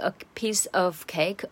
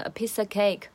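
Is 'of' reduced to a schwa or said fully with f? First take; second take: full; schwa. First: The word 'of' is said fully with f. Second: The word 'of' is reduced to a schwa. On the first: The speaker calls it wrong. "而不是" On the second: The speaker calls it right. "它直接就是把of 整个弱化成schwa"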